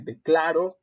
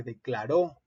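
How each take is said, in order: First: Declaro stressed on CLA, light final RO; stress on second-to-last syllable. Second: Declaró with the final RÓ stressed; stress on last syllable. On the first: Teacher showing why accents matter, penultimate stress on declaro. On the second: Teacher showing why accents matter, final stress on declaró. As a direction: say declaró as de-cla-RÓ. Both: Shown as a demonstration. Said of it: "no es lo mismo decir".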